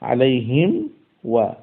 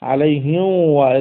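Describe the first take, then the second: First: The lips close fully on m before wa. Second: The m is skipped, gliding straight into wa. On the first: The speaker calls it right. "মিম সাকিনকে আগে সুন্দর মতো আদায় করে" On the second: The speaker calls it wrong. "মিমের মাখরাজ থেকে মিম আদায় করার আগেই আলাইহিম ওয়া এরকম হয়ে যায়"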